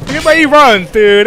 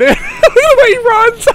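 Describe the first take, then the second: First: Amused outcry. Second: High, slow laughing repeat. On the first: Enemy running odd way. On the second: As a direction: crack up while saying it. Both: Real, not acted.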